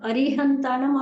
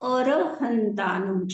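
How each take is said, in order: First: The word begins with 'ari', with an i sound. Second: The word begins with 'ar', with no i sound. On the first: This is the form people usually recite. "એ અરિહંતાણમ આપણે બોલીએ છીએ ને" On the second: This is the form found in the scripture. "અરી નથી, અર છે"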